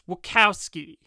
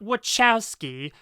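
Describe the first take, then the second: First: The name is said the Chicago way. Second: The name is said in a non-Chicago way. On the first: The speaker calls it right. "They're from Chicago. That's how you pronounce it" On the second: The speaker calls it wrong. "it's not Wachowski"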